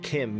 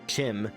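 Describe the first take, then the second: First: It begins with a k sound and short i. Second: It begins with a ch sound and short i. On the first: "I'm pronouncing it Kim because that's how Kirkbride said it was pronounced" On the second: "as in chimpanzee, sounds worse to my ears"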